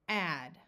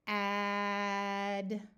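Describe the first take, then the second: First: The word is said quickly. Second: The word is drawn out slowly. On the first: "and then we will say it fast" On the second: "We will say them slowly"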